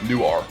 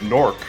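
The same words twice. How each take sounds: First: It is said the way Delaware people say it. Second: It is said the way city locals say it. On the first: The speaker is from Delaware. "Or if you're from Delaware, ... the most offensive" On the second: The speaker is from the city. "if you're from Newark"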